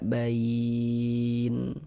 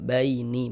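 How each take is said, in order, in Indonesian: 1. Kata ini berakhir dengan huruf nun mati, tanpa harakat. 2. Kata ini berakhir dengan vokal i pendek. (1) "kita baca bain" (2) "Jangan dibaca baini baru berwakaf"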